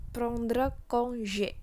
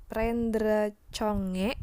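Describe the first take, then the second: First: "prendre congé" as nasal "prond-rə kon-zhé"; correct French pronunciation. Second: "prendre congé" read by Indonesian spelling, "pren-dre cho-nge"; wrong spelled-out reading. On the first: Teacher correcting the spelled-out reading, "prendre congé" as "prond-rə kon-zhé". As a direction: say "prendre congé" slowly, throaty r and soft zh. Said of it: "Kita nggak mengucapkannya dengan".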